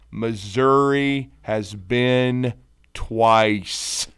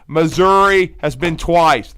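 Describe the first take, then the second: First: It is said slowly. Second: It is said at normal speed.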